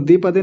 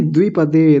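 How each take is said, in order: First: द्विपदे said as "di-pa-de"; wrong, v dropped. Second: द्विपदे said as "dvi-pa-de"; v clearly sounded. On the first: Teacher showing what not to say, द्विपदे as dipade. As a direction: drop the v from द्विपदे. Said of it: "तो द्विपदे नहीं". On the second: Teacher correcting the word, द्विपदे with dvi. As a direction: sound the v right after d in द्विपदे. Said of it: "द में नीचे व भी बना हुआ है". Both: Shown as a demonstration.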